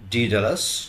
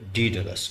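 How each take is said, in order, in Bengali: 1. নামটি আমেরিকান ধাঁচে বলা হয়েছে। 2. নামটি ব্রিটিশ ধাঁচে বলা হয়েছে। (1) "আমেরিকানরা বলে" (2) "ব্রিটিশরা বলে"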